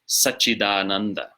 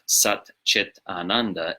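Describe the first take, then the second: First: One joined word, with a d before ananda. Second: Three separate words, each ending in a t sound. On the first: The speaker calls it right. "it's Satchidananda" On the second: The speaker calls it wrong. "it's not Sat Chit Ananda"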